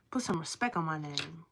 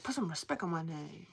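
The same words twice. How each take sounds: First: Said in the usual way. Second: Lower, softer rapper line; imitating the rapper. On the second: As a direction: quote the rapper with a mock edge. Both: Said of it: "the rapper where he's like".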